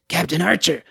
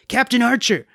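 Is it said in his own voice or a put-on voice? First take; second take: put-on voice; own voice. First: It is said in a put-on Damrus voice. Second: It is said in his own normal voice.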